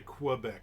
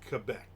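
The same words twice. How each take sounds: First: It is said with an ordinary English pronunciation. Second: It is said with a French-sounding pronunciation. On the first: The speaker calls it wrong. "Don't say Quebec" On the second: The speaker calls it right. "it's Quebec"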